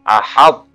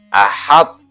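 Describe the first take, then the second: Both takes have the same delivery.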